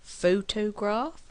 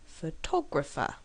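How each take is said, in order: First: Photograph with PHO stressed, slow and higher; photograph with a drawn-out first syllable PHO. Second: Photographer with TO stressed. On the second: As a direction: lean on TO in photographer. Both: Shown as a demonstration. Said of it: "you probably know what the word is".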